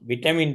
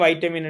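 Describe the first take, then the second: First: The first syllable has a short 'i' vowel. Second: The first syllable has an 'eye' vowel. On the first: "விட்டமின் தான்" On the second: "அமெரிக்கன்ல வந்து வைட்டமின் எடுத்து pronounce பண்ணுவாங்க"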